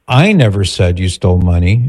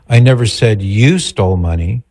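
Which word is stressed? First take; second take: I; you. First: The stress is on "I". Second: The stress is on "you".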